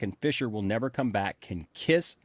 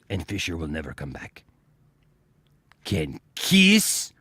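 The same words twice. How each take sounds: First: It is read in an ordinary speaking voice. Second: It is read in a put-on villain voice.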